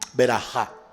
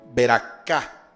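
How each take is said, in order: First: Sephardic style, with a soft throaty middle consonant. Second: Ashkenazi style, with a harder k middle consonant. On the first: "Los judíos españoles o sefarditas lo pronuncian así" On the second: "Los askenazi... pronuncian es beracá. Un poco más fuerte"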